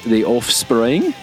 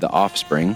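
First: The name is said with lively energy. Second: The name is said in a flat, dull way.

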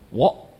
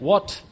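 First: The word is clipped, with sounds dropped. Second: The word is said in full, nothing dropped. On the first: "we say what" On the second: "Instead of saying what"

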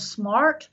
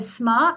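First: It is said in an American accent. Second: It is said in a non-American accent.

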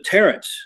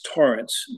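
First: The first vowel sounds like an 'a'. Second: The first vowel sounds like an 'o'. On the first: This is the form adopted so people could say it easily. "they changed the name to Tarrance just because people couldn't pronounce it right" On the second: This is the original Gaelic form of the name. "It's pronounced like it has an O in it, but it's spelled with an A"

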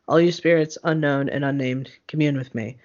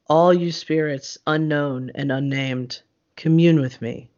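First: It is read flatly, with little energy or pacing. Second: It is read expressively, with deliberate varied pacing. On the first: The reading breaks the mood of the ritual. The speaker calls it wrong. "I have been in rituals where people read it just like that. ... I don't feel the energy" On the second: The reading builds the mood of the ritual. The speaker calls it right. "the pacing is different, and it makes you feel more things"

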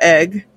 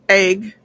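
First: It is said in the standard, non-regional way. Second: It is said in the speaker's own regional way.

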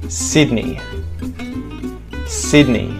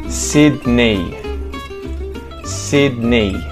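No difference in how they are said.

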